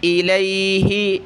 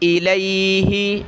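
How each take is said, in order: The two takes are said the same way.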